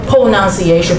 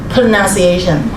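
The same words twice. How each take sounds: First: The O vowel is sounded as a full O. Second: The O vowel is not sounded as a full O. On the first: The speaker calls it wrong. "they see the letter O there. O is there, of course, po, O, po" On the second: The speaker calls it right. "you know that is pronunciation"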